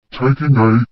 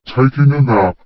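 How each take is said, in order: First: A mild, stumbling echo in disbelief; surprised. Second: A lightly yawned reply; yawning. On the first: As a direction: echo it back, caught off guard. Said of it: "Alexandra blundered". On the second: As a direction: say it through a yawn. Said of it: "I yawned". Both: Acted.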